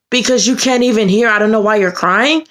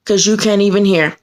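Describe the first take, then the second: First: Indignant echo. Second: Mildly mimicked staffer's attitude; dismissive attitude. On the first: Retold or imitated. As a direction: throw the words back in disbelief. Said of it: "I was pissed". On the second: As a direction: quote it with a touch of dismissiveness. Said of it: "With that kind of attitude".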